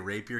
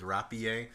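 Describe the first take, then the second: First: The word is pronounced in a plain, ordinary way. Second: The word is pronounced in an affected, showy way. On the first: The speaker calls it right. "He doesn't say rapier" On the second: The speaker calls it wrong. "He says rapier. ... it's the most pretentious thing"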